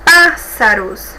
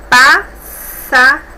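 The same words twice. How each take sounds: First: Said in the usual way. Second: "pássaros" very slow, in three separate pieces; syllable by syllable. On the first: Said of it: "é uma palavra". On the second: Shown as a demonstration. Teacher showing three syllables, "pássaros" split slowly with pauses. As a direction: break "pássaros" into PÁS-sa-ros, loud first syllable. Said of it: "que possui três sílabas também".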